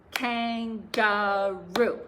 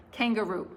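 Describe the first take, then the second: First: Kangaroo split slowly into beats, kan-ga-roo, louder; clapped syllables. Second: Said in the usual way. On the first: Shown as a demonstration. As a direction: clap out Kangaroo one syllable at a time, slow. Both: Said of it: "let's try clapping to a few".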